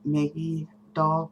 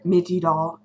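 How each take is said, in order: First: The first word begins with a short a sound. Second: The first word begins with a short i sound. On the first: "I don't say Maggie doll" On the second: "Midgie doll is how I pronounce it"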